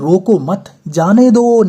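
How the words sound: The pause comes after the word 'mat'. Do not stop him; let him go. "यहाँ पे ये अल्पविराम है"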